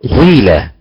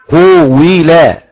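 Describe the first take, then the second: First: The first vowel blends u and i into one. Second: The first vowel is drawn out as two vowels. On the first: The speaker calls it right. "خلط الضمه كسره في القاف لتصبح حركه واحده" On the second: The speaker calls it wrong. "تشبع القاف تبقى اكثر من حركه"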